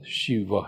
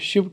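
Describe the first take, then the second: First: The word ends on a short vowel. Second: The word ends on the consonant v. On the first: This is the actual form of the name. "दरअसल शिव है" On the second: This is the everyday spoken form. "हम इसे बोलचाल में शिव कहते हैं"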